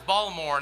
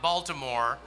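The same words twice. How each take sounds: First: The name is said the local way. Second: The name is said a non-local way. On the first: The speaker calls it right. "that's the proper pronunciation" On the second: The speaker calls it wrong. "not Baltimore"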